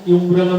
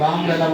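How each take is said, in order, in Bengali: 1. শব্দটি 'yoo' ধ্বনি দিয়ে শুরু হয়। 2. শব্দটি 'uh' ধ্বনি দিয়ে শুরু হয়। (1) "আমি কি ইউমব্রেলা বলছি? বলি নাই" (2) "আমব্রেলা বলছি, মানে ইউ নাই"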